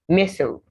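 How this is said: It is said with an American pronunciation.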